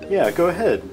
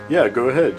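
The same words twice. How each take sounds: First: It is said in the normal voice. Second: It is said in a low, deep voice. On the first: The speaker calls it wrong. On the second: The speaker calls it right.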